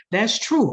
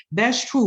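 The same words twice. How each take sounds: First: Said in the usual way. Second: Rising, unsure "That's true."; awkward quoted agreement. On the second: Retold or imitated. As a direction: say "That's true." with a hesitant lift at the end. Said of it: "they're afraid they might say".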